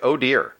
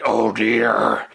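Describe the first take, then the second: First: It is said casually in a plain voice. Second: It is said in Despero's gravelly voice.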